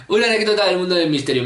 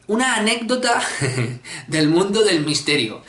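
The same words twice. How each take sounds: First: Faster, brisk re-read of the title; quick, matter-of-fact title read; quick repeat. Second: Ominous game-show question; mysterious announcement. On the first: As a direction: rattle it off the second time. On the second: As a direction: read the question title like a mystery show host. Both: Shown as a demonstration.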